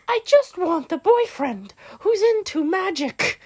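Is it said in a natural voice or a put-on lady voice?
lady voice. It is said in a put-on lady voice.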